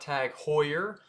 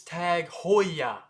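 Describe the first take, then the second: First: Tag Heuer as tag HOY-er; mispronunciation. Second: Tag Heuer as tag HOY-ah; slow Tag Heuer ending in AH; correct pronunciation. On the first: Teacher shows what not to say, mispronunciation. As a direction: sound the final R in Tag Heuer. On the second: Teacher models the brand name, correct pronunciation. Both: Shown as a demonstration. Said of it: "not Tag Heuer".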